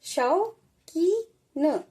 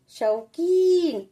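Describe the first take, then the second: First: शौकीन stretched out very slowly, each sound drawn apart; slow sounding-out for pupils; syllable by syllable. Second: Said in the usual way. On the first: Shown as a demonstration. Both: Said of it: "कैसे?".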